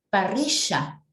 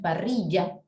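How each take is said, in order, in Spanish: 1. La doble L suena como sh. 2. La doble L suena como y. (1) "¿cómo lo pronuncia un argentino?" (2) "ellos no dicen parrilla"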